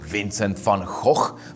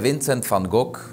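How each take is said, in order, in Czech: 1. Jméno se vyslovuje v původní výslovnosti. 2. Jméno se vyslovuje obvyklým místním způsobem.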